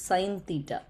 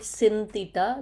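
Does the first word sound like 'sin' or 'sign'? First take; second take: sign; sin. First: The first word sounds like 'sign', long vowel. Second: The first word sounds like 'sin', short vowel. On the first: The speaker calls it right. "this is sine theta, the pronunciation" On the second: The speaker calls it wrong. "Don't call it sin theta"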